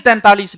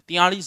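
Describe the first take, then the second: First: The word is said in full as 'taintalis'. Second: The word is said in reduced form as 'tiyalis'. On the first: The speaker calls it right. "अगर आपने कभी बोला है तैंतालीस तो ही तैंतालीस लिखोगे" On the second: The speaker calls it wrong. "नहीं तो तियालीस ही ठोक"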